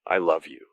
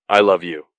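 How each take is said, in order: First: Miserable, understated declaration; miserable wail. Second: Loud, miserable declaration; loud wail. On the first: Luis to Patrick after the kick, understated misery. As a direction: say it wretchedly, without raising the voice. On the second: Luis repeats his love to Patrick, loud wail. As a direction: wail it out forcefully. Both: A narrator's reading. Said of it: "he miserably wails".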